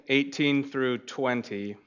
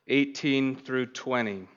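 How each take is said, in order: The two takes are said the same way.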